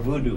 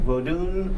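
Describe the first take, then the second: First: The word ends with an oo vowel. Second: The word ends with an n sound. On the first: This is the common, French-influenced name. "or voodoo, the usual spelling" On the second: This is the name used by practitioners. "V O D O N, Vodun"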